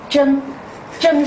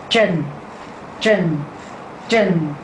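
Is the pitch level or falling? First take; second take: level; falling. First: The pitch stays level throughout. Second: The pitch falls downward throughout. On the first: It means precious. "如果我把这个符号擦掉，我这个字呢会念真真。真是平声的" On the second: It means sunken or deep. "如果我有这个符号，它变成真真真，所以它是往下"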